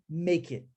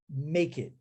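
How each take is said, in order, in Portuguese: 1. As duas palavras são unidas em uma só. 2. As duas palavras são unidas em uma só.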